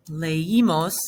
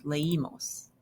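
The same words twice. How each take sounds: First: "leímos" louder, in separated syllables le-i-mos; form before accent mark. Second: "leímos" softer and run together, le-Í-mos; accented form. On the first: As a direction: say "leímos" firmly and carefully, le-I-mos. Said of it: "we would just say that". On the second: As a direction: say "leímos" quietly as one smooth word. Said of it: "we have an accent". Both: Shown as a demonstration.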